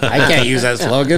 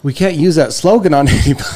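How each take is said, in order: First: Said in the usual way. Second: A laugh breaking into the last words. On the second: Real, not acted. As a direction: giggle through the punchline. Joking about the slogan.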